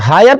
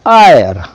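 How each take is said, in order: First: The word begins with an h sound. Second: The word begins with a vowel sound. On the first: The speaker calls it wrong. "हायर पढ़ेंगे ना आयर पढ़ेंगे?" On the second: The speaker calls it right. "इसको पढ़ेंगे हम लोग आयर, ये एच silent हो गया है"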